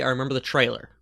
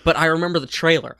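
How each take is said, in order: First: Said in the usual way. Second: Trailer stressed with a louder rise. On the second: Shown as a demonstration. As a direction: hit trailer harder. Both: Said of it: "I don't remember the movie".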